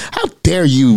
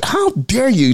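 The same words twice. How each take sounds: First: Retold anger. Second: Retold outrage. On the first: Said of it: "I was angry". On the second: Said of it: "I'm angry because he is enjoying".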